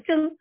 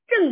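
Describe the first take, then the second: First: It has a tone unlike the emperor's name. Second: It has the same tone as the emperor's name. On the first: This is the substitute reading used today. "就改成了正啊" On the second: This is the reading avoided out of respect for the emperor. "所以呢就不发这个正的音"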